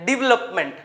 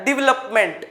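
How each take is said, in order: Both takes have the same delivery.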